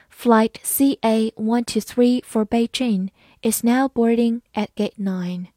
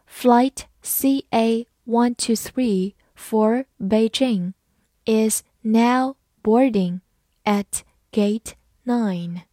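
First: Said in the usual way. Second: Slow model reading in short separated chunks. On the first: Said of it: "慢慢来读". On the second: Shown as a demonstration. Teacher reading an airport boarding call for learners, slowly. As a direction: read it slowly, pausing between words. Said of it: "好，慢慢来读".

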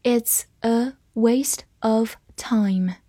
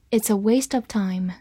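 First: Word by word, evenly spaced; slow reading. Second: Said in the usual way. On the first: Shown as a demonstration. Teacher reads along with learners word by word, slow reading. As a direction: read slowly with a gap after every word. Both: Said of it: "我们慢慢来读".

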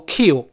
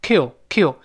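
First: "kill" with a tense ee, like "keel"; wrong vowel. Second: "kill" with a relaxed, open short i; short i vowel. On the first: Teacher shows the error to avoid, "kill" as "keel". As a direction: say "kill" with a long ee sound. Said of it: "不要读kill". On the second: Teacher drills the right vowel, "kill" with lax i. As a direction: say "kill" slowly, vowel nearer eh than ee. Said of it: "再次强调发哎". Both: Shown as a demonstration.

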